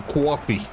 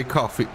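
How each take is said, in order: First: Put-on "coffee" with a rounded, drawn "caw" vowel, American accent; regional American accent. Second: Said in the usual way. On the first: Streamer asking which region says coffee this way, imitated American accent. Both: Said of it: "the one where they say coffee".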